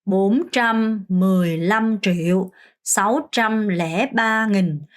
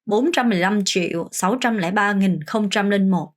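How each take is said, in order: First: Very slow, syllable by syllable; careful teacher's slow count; slow demo reading. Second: A smoother full run, still measured; one fluent pass for the class; faster reading. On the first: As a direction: spell each number out slowly for learners. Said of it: "숫자를 보고 그냥 바로 읽는 연습". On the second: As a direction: read the whole number in one go. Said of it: "좀 스피드가 나올 수 있을 정도로". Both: Shown as a demonstration.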